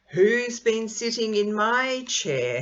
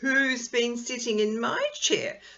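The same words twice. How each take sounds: First: It is said in a deep, growling voice. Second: It is said in a high, squeaky voice. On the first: A big father character is speaking. "he growled" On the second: A little baby character is speaking. "squeaked Baby Bear"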